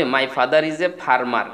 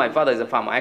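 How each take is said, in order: First: "father" and "farmer" with the r's sounded; r pronounced. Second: "father" as "fah-dah", "farmer" as "fah-mah"; British silent r. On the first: Teacher showing learners' usual version, "farmer" with r sounded. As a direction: say "farmer" slowly as "far-mar", every r heard. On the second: Teacher giving own version to learners, "farmer" without r. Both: Shown as a demonstration. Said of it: "এটাকে আমি বলবো".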